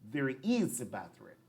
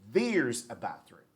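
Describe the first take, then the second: First: Both words 'there is' are said in full. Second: 'There is' is shortened into one syllable. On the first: "the first one is pronounced" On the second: "the second one is there's"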